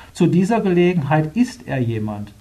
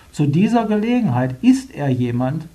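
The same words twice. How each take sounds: No difference in how they are said.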